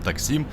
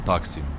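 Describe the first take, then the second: First: The stress is on the last syllable. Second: The stress is on the first syllable. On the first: This is the habitual way most people say it. The speaker calls it wrong. "все привыкли Таксим, Таксим ... все ударения на последний слог" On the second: This is how it is announced locally. The speaker calls it right. "вы сами своими ушами услышите"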